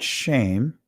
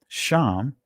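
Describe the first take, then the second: First: The vowel is a closer 'ay' sound. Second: The vowel is an open 'ah' sound. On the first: The speaker calls it wrong. "not shame" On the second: The speaker calls it right. "I'm saying it from the ancient Hebraic pronunciation"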